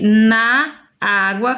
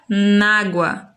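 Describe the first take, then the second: First: The words na and água are said separately. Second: The words na and água merge into one. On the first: "O som de na água" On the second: "fica nágua"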